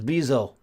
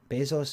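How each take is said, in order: First: The name ends without an s sound. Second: The name ends with an s sound. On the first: The speaker calls it right. "You don't say the S, it's Bezo" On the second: The speaker calls it wrong. "Is that how you say his name?"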